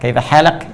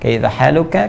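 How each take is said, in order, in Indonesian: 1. Kata kedua berakhir dengan konsonan, 'halak'. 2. Kata kedua berakhir dengan vokal, 'haluka'. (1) "Jadi u-nya dihilangkan oleh mereka. Ini yang slang ya" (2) "Tapi kalau fasihnya gunakan dhammah"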